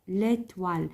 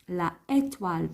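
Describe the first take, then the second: First: The article vowel is dropped and joined. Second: The article vowel is kept before the noun. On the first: The speaker calls it right. "نقولو l'étoile" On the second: The speaker calls it wrong. "ما نقولوش la étoile"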